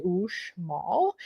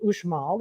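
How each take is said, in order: First: Uxmal said slowly, each part clear; careful pronunciation. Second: Said in the usual way. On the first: Shown as a demonstration. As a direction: spell out Uxmal slowly as the proper way. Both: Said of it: "that's how you say Uxmal".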